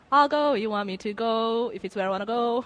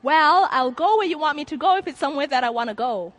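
First: Said in the usual way. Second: Sarcastic. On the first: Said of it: "why couldn't they just add that little adage". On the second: Retold or imitated. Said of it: "I was like".

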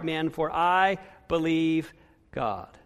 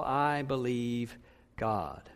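First: Said in the usual way. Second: Hushed, slow I believe God; quiet, slow conviction. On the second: Shown as a demonstration. Pastor voicing Paul's faith to the congregation, slow and hushed. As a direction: drop low and slow, say it like Paul. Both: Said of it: "To say it like Paul".

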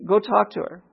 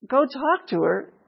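First: Simple, steady instruction; lightly voiced inner prompting; Holy Spirit prompting. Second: Slow, high-pitched disbelieving question; incredulous echo. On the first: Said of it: "Here's the Holy Spirit again". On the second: Acted. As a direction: repeat it back as if it's crazy. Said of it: "that's crazy".

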